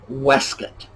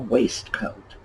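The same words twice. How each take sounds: First: It is said with reduced sounds, like weskit. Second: It is said as two full parts, waist-coat. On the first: The speaker calls it right. "That alternate spelling is exactly how it is pronounced" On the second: The speaker calls it wrong. "No, it is not a waistcoat"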